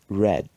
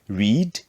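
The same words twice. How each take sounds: First: It is said with the changed past-form vowel. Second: It is said with the base-form vowel. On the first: It is the past participle form. "the pronunciation changes in the simple past and past participle" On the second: It is the present base form. "So we say read"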